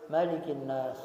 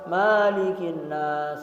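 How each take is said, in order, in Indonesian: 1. Vokal pertama dari malik dibaca pendek. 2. Vokal pertama dari malik dibaca panjang. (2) "tidak boleh dibaca malikin nas, tidak"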